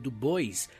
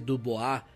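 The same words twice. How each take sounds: First: The name is pronounced just as it is spelled. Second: The name is pronounced differently from its spelling. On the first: The speaker calls it wrong. "eu acho que é melhor eu falar como eu leio" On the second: The speaker calls it right. "deve ser Du Bois"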